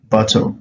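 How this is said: The middle T is a clear, crisp T sound. "the British will say bottle"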